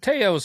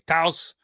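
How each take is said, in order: First: The name does not rhyme with house. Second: The name rhymes with house. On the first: The speaker calls it wrong. "I was saying Theos, and it's Toyos" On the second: The speaker calls it right. "like house with a T"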